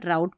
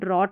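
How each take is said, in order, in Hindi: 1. स्वर 'ow' जैसा सुनाई देता है, जैसे 'cow' में। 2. स्वर 'aw' जैसा सुनाई देता है, जैसे 'thought' में। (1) "ड्राउट पढ़ना है" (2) "इसको ड्रॉट नहीं पढ़ना है"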